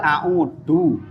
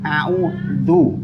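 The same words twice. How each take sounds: First: The middle consonant is a hard d sound. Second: The middle consonant is a soft th sound. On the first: The speaker calls it wrong. "Kalau dal" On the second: The speaker calls it right. "ada mundurnya sithik"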